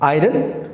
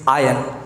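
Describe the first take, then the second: First: The r sound is pronounced in the word. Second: The r sound is silent in the word. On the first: The speaker calls it wrong. "इसे भी लोग गलत pronounce करते हैं" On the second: The speaker calls it right. "इस आर को silent कर दें तो आप इसे सही प्रोनाउंस करेंगे"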